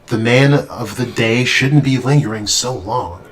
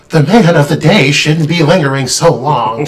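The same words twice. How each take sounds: First: It is read without a Joker-like voice. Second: It is read in a Joker-like put-on voice.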